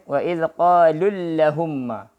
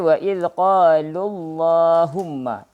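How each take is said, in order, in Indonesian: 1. Bunyi L dalam Allahumma itu tipis dan ringan. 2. Bunyi L dalam Allahumma itu tebal dan penuh. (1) "jangan baca ... Salah"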